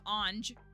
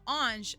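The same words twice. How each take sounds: First: The word ends in a hard 'j' sound. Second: The word ends in a soft 'zh' sound. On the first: The speaker calls it wrong. "I was saying more like ange" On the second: The speaker calls it right. "it's a little more je sound, je"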